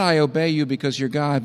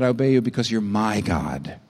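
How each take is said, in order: First: Said in the usual way. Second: The word "my" leaned on and held; tender weight on "my" in "my God"; stress on my. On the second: Shown as a demonstration. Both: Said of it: "not ... but".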